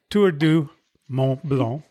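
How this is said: The name is said with French pronunciation. "en français"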